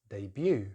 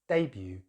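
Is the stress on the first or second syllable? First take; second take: second; first. First: The stress is on the second syllable. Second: The stress is on the first syllable. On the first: This is the American pronunciation. "put the stress on the second syllable" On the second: This is the British pronunciation. "with stress on the first syllable"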